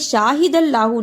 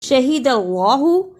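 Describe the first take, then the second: First: The first vowel is drawn out long. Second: The first vowel is short. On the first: The speaker calls it wrong. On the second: The speaker calls it right.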